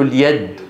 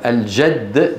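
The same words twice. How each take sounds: First: اليد with y replacing the j of jadd; jim as ya. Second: Said in the usual way. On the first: Retold or imitated. Teacher imitates Arabian Peninsula speech, jim as ya. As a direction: glide a y where j belongs in اليد. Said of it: "يقلبون الجيم إيه". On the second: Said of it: "فبدل من أن يقولوا".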